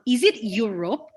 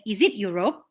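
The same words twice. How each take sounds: First: The stress falls on the first part, 'Eu'. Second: The stress falls on the last part, 'rope'. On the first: It asks about the continent. "you put the stress on the your" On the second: It asks whether it is the listener's rope. "you put the pressure on the rope"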